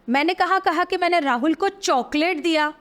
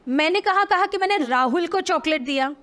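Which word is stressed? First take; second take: Chocolate; Rahul. First: The stress is on chocolate. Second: The stress is on Rahul.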